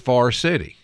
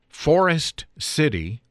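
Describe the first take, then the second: First: Forest is squeezed into one syllable, like far. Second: Forest is said with two full syllables. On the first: This is how locals say it. "for most people that live in the area, is Far City" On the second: This follows the spelling. "if you speak the name of locations according to their spelling"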